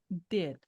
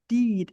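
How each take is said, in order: First: The vowel is a short, open i sound. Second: The vowel is a long ee sound. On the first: The speaker calls it right. "é did, did. É um som de I com o formato da boca em E" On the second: The speaker calls it wrong. "não é o I longo, não é did"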